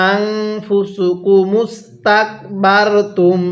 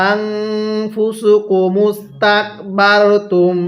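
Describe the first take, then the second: Both takes have the same delivery.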